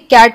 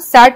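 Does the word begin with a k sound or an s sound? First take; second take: k; s. First: The word begins with a k sound. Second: The word begins with an s sound. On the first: The speaker calls it right. "ये कैट हो गया" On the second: The speaker calls it wrong. "इसे हम सैट नहीं पढ़ेंगे"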